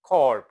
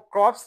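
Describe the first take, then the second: First: The word ends without a 'ps' sound. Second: The word ends with a 'ps' sound. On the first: The speaker calls it right. "Marine कोर पढ़ेंगे" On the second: The speaker calls it wrong. "इसको क्रॉप्स नहीं पढ़ेंगे"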